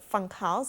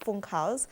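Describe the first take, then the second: First: The first vowel sounds like English 'fun'. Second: The first vowel is a German 'oo' sound. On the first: The speaker calls it wrong. "the pronunciation is not Funkhaus" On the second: The speaker calls it right. "it's Funkhaus"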